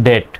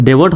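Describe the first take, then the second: First: ডেট in one syllable, silent b; correct pronunciation. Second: ডেবিট with the b sounded; spelling pronunciation. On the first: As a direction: say ডেট with no b sound. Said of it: "হবে ডেট". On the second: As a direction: say ডেবিট in two syllables, as spelt. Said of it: "ডেবিট হওয়ার কথা". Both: Shown as a demonstration.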